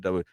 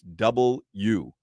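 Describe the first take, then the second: First: The letter is said clipped, like dubya. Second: The letter is said fully as double you. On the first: The speaker calls it wrong. "that's how they say W" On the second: The speaker calls it right. "when you say W in the broadcast industry, it's double U"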